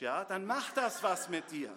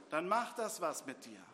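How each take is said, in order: First: "das" pressed hard and louder, sentence pushed out with force; emphatic first take. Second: Said in the usual way. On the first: Real, not acted. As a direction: hammer home "macht das was mit dir" loudly.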